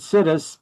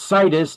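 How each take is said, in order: First: The first syllable sounds like the word 'sit'. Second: The first syllable does not sound like 'sit'. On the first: The speaker calls it wrong. "I mispronounce it situs because ... we're going to sit us right here" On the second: The speaker calls it right. "it's pronounced situs"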